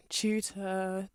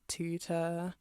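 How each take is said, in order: First: "tutor" begun with a "ch"; British-style "tutor", ch onset; British TU sound. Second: "tutor" begun with a hard "t"; American-style "tutor", plain t onset; American TU sound. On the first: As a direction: say "tutor" as "choo-ta". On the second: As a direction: say "tutor" as "too-ta". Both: Shown as a demonstration. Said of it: "how the T U sound changes".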